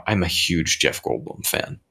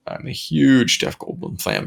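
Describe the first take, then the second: First: Said in the usual way. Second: "huge" drawn out, higher and slow; stress on huge. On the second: Real, not acted. Fan owning up to his Goldblum devotion, stressing "huge". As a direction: lean hard on "huge", stretching it.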